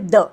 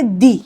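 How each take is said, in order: First: The word ends in a short 'uh' sound. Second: The word ends in a long 'ee' sound. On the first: The next word starts with a consonant sound. "इधर हम the को pronounce करेंगे the" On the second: The next word starts with a vowel sound. "सो हम T H E को बोलेंगे दी"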